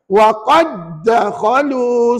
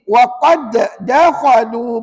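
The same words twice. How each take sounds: First: The first d merges smoothly into the next d. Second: The first d gets a separate echoing bounce. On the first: The speaker calls it right. "Dengan cara tidak membunyikan qalqalah pada bacaan. ... Bacaan yang betul dengar" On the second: The speaker calls it wrong. "Tiba-tiba anak cucu baca begini"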